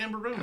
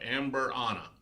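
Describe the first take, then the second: First: The third syllable has an 'oo' vowel. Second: The third syllable has an 'a' vowel. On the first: This is how other people say it. The speaker calls it wrong. "Everybody's saying" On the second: This is how the speaker says it. The speaker calls it right. "I'm saying it right"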